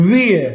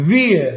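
The two takes are said the same way.

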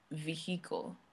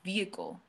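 First: The H sound in the middle is strongly emphasized. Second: The H sound in the middle is soft or silent. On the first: The speaker calls it wrong. "what's with the emphasis on the H?" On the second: The speaker calls it right. "It's vehicle"

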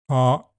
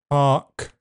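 First: The final 'k' ends with a sharp popped release. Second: The final 'k' ends with a puff of breath. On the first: "Park is an adjective" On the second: "park is aspirated"

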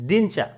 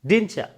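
No difference in how they are said.

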